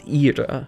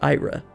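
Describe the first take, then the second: First: The name is said with a Latin pronunciation. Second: The name is said with an English pronunciation. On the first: The speaker calls it right. "It's pronounced Ira. ... the nature of how pronunciations in that language are" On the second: The speaker calls it wrong. "this isn't pronounced Ira"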